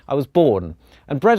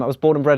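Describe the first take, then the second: First: There is a clear pause after born. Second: The words run together with no pause after born. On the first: The island's bread tastes delicious. The speaker calls it right. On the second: The speaker grew up on the island. The speaker calls it wrong.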